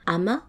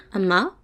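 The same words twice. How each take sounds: First: Said in the usual way. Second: Ama begun with a glottal catch before the a; glottal stop ama. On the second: Shown as a demonstration. Teacher showing learners the glottal a in Ama. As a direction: stop the breath, then release into Ama. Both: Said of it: "Le A avec glottale".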